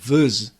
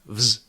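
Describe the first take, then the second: First: A short schwa vowel separates the consonants. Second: The consonants glide together with no vowel. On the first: The speaker calls it wrong. "it's not vz" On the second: The speaker calls it right. "it's vz"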